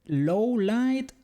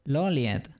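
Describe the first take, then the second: First: The name is said as two words, 'low light'. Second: The name is blended into one word, 'Loliet'. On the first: This is how it is actually pronounced. "I never knew it was pronounced like that" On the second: This is how the speaker always said it. "Loliet for me was always canon"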